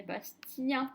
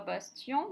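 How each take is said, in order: First: "Bastien" ending in nasal "un", said slowly. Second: "Bastien" ending in "an", like "Basti-an"; wrong nasal vowel. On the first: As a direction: say "Bastien" slowly, last vowel as in "chien". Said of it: "Le E N devient". (« Bastien » lentement, finale en son « un ») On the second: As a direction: say "Bastien" with final "en" as in "enfant", rising. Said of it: "On dit pas Bastien". (« Bastien » mal lu, qui finit en « an ») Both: Shown as a demonstration.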